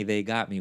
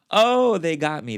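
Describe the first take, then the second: First: Said in the usual way. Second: "they got me" louder and higher, overcome; emphatic. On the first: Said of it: "plain echo". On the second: Real, not acted. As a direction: burst out that it got her. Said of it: "emphatic first take".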